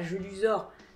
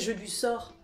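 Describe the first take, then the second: First: The middle consonant sounds like z. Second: The middle consonant sounds like s. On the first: The speaker calls it wrong. "pas Jeu du sort" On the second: The speaker calls it right. "ça devrait bien se prononcer Jeu du sort"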